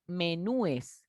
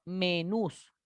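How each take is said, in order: First: Menúes with an extra "es" after the ú; "menúes" with stressed nú, then "es"; wrong plural menúes. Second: Menús ending straight on a stressed "-nús"; "menús" with only an s after the ú; correct plural menús. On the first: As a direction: say "menúes" slowly in three syllables, me-nú-es. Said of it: "El plural de menú no es". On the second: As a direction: say "menús" slowly in two syllables. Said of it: "no es menúes". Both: Shown as a demonstration.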